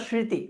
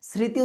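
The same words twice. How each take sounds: First: "স্মৃতি" said "shriti", with sh; palatal sh sound. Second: "স্মৃতি" said "sriti", with a clear s; dental s sound. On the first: Teacher offering students the second option, স্মৃতি with sh. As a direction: start "স্মৃতি" on a hushing sh. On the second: Teacher offering students the first option, স্মৃতি with dental s. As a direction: start "স্মৃতি" on s, silent m. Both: Shown as a demonstration. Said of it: "স্মৃতি উচ্চারণ করি না স্মৃতি".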